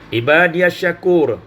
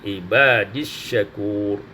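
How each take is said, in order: First: The 'ya' is voiced with a vowel before 'as'. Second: The 'ya' is silent, running straight into 'is'.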